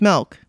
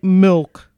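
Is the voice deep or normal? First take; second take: normal; deep. First: It is said in her normal voice. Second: It is said in a lowered, deeper voice.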